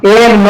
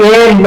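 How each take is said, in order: No difference in how they are said.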